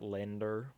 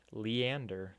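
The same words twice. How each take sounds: First: "Lender" squeezed into two syllables; wrong pronunciation. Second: "Leander" with a clear "lee-AN" opening; correct pronunciation. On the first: Showing the mistaken name, "Lender" as LEN-der. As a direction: say "Lender" as LEN-der, dropping the middle vowel. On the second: Correcting how the name is said, "Leander" as lee-AN-der. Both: Shown as a demonstration. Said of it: "That's not how I pronounce my name".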